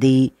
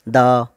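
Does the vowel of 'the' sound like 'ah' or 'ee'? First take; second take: ee; ah. First: The word ends in an 'ee' vowel. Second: The word ends in an 'ah' vowel. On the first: "कुछ लोग इसे दी भी कह देते हैं" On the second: "कुछ लोग इसे दा भी कह देते हैं"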